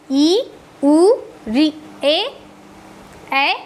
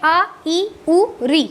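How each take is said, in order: First: ई, उ, री, ए each held for two beats; long vowels. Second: Each vowel clipped short, quick. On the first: Teacher to class, demonstrating long vowels, each drawn out. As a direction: stretch every vowel to double length. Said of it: "दीर्घ स्वर में थोड़ा ज़्यादा समय लग रहा है". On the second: Teacher to class, demonstrating short vowels, quick and clipped. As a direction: say the vowels briefly, one beat each. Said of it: "हर स्वर में बहुत कम समय". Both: Shown as a demonstration.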